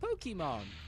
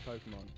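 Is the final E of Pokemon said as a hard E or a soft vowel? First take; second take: hard E; soft vowel. First: The E is said as a hard E. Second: The E is not said as a hard E. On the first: "I definitely don't say it like a hard E" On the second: "the way I say Pokemon"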